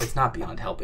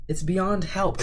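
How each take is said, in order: First: Said in the usual way. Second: High-pitched playful lament; mock despair. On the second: Streamer gives up on the chair, high mock despair.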